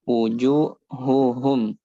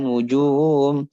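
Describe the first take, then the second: First: The h before the last syllable is clear. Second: The h before the last syllable is dropped. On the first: The speaker calls it right. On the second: The speaker calls it wrong.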